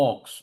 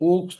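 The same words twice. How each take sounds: First: "অক্স" with an open aw sound; open vowel in "অক্স". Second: "ওক্স" with a rounded oh; closed oh vowel. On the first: Teacher demonstrating how ox is said, open-vowel "অক্স". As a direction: say "অক্স" with aw, never a closed oh. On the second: Teacher showing learners the mistake, closed-oh "ওক্স". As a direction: say "ওক্স" as oaks, the mistaken reading. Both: Shown as a demonstration. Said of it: "ওক্স না কিন্তু".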